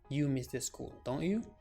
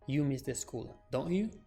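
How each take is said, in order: First: The voice rises at the end of the tag. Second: The same.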